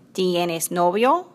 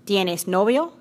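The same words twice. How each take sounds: First: Drawn out, word by word; slow way down so she can follow. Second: Said in the usual way. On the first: Acted. Juana asks again very slowly for Ana. Repeated for confused guest. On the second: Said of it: "first quick question".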